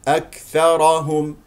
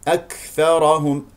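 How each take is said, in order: Both takes have the same delivery.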